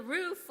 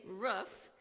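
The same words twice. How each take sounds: First: "Roof" said with a long oo as in food; "Roof" with the vowel of "boot"; standard roof. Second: "roof" said with a short vowel as in "book"; "roof" rhymes with "hoof" in a Midwest way. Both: Shown as a demonstration. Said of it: "or as you guys say".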